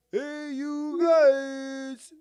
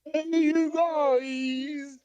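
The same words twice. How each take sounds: First: High, drawn-out loud holler; big roaring movie-monster call; Sloth from Goonies. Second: High, stretched call with volume held back; restrained, drawn-out monster cry; Sloth from Goonies. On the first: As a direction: demonstrate it with long stretched words. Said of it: "You don't have to yell it out". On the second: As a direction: do the long holler without really yelling. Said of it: "probably do a good Sloth impression". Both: Shown as a demonstration.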